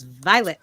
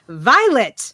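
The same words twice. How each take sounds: First: The word is said in a plain, flat way. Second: The word is said with loud, excited energy. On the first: The speaker calls it wrong. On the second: The speaker calls it right.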